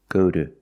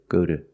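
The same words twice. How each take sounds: The two takes are said the same way.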